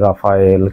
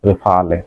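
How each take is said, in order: First: It sounds like ra-fa-yel, ending in yel. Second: It sounds like re-fa-le, ending in le. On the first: The speaker calls it wrong. "কেউ বলে রাফায়েল" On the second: The speaker calls it right. "ফরাসি উচ্চারণ হলো রেফালে"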